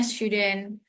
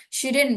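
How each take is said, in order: First: Shouldn't said slowly and carefully, the l silent; correct pronunciation of shouldn't. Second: Shouldn't read quickly as spelled, the l sounded; the mistaken take of shouldn't, rushed, with the l pronounced; wrong pronunciation of shouldn't. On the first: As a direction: model shouldn't slowly, no l sound. (shouldn't diucapkan benar, pelan, tanpa bunyi l) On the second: (shouldn't diucapkan salah, cepat, huruf l ikut dibaca) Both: Shown as a demonstration. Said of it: "bacanya shouldn't".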